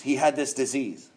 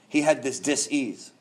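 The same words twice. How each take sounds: First: Said in the usual way. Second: "dis-ease" split in two, slow, with an s sound; slow "dis-ease" with a clear break. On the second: Shown as a demonstration. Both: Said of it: "He had this dis-ease".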